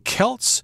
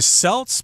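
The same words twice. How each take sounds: First: The word begins with a hard K sound. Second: The word begins with a soft S sound. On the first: The speaker calls it right. "you're supposed to say Celts. The C there has a hard K sound" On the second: The speaker calls it wrong. "Some people say Celts"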